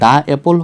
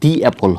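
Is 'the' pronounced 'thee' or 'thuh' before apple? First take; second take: thuh; thee. First: The word 'the' ends in an 'uh' sound. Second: The word 'the' ends in an 'ee' sound. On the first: "দা অ্যাপল হবে" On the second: "নাকি দি অ্যাপল হবে"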